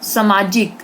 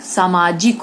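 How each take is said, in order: First: सामाजिक said with a short first vowel, "samajik" as səmajik; wrong pronunciation. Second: सामाजिक said slowly, with a full long आ at the start; correct pronunciation. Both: Shown as a demonstration. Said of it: "जबकि गलत है सामाजिक".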